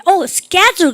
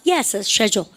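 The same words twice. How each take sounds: First: Schedule with a hard sk at the start; American pronunciation. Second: Schedule with a soft sh at the start, lower voice; British pronunciation. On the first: Teacher acts a listener checking the spelled word, schedule with American sk. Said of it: "스케줄 미국 애들이 그랬습니다". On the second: Teacher acts a stubborn Briton answering, schedule with British sh. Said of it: "영어사는 고집 세가지고 때발이 세요. 지네 발음대로 해요". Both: Acted.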